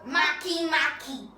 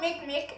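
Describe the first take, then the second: First: Each half sounds like 'mah-kee' with two syllables. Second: Each half sounds like the English word 'make'. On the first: The speaker calls it right. "That's the correct pronunciation" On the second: The speaker calls it wrong. "It's not called Makemake"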